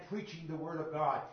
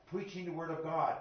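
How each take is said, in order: Both takes have the same delivery.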